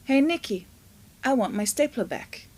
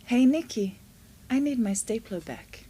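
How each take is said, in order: First: Mildly annoyed demand; a touch of anger in the demand; angry tone. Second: Friendly, nice, persuasive request. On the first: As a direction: demand it back, irritated. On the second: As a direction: ask kindly for it back. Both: Shown as a demonstration. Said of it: "I'll say it again".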